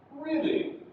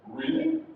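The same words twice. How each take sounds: First: "Really" pitched high, then falling; falling intonation. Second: "Really?" climbing high at the end; rising intonation. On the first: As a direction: start "Really" high and let it drop. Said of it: "Yeah, that's falling intonation". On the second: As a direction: lift "Really?" upward in surprise. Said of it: "It's going up again". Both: Shown as a demonstration.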